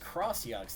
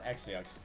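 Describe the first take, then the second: First: The first part is said as 'cross'. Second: The first part is said as 'ex'. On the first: The speaker calls it right. "I hear this is read as Cross-Yux" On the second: The speaker calls it wrong. "not X-Yux. My bad"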